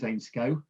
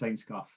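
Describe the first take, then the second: First: The name is said the Lancashire way. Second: The name is said the Yorkshire way. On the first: "in Lancashire it's Ainscough" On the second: "in Yorkshire it's Ainscough"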